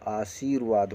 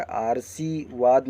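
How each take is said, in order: First: आशीर्वाद with a long शी and र before वाद, dropping lower; correct pronunciation. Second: आरसीवाद said slowly with a plain आर and स, as the wrong form; wrong pronunciation. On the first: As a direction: say आशीर्वाद properly with र् joined to वाद. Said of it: "होगा". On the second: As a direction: read the misspelling आरसीवाद out slowly. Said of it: "नहीं होगा". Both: Shown as a demonstration.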